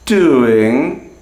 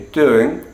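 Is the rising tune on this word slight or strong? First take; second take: strong; slight. First: The pitch rises strongly and distinctly across the word. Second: The pitch rises only slightly across the word. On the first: "the full rise will not always be that distinct. It's not always doing" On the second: "Sometimes it'll be doing"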